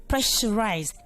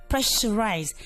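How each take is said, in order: Both takes have the same delivery.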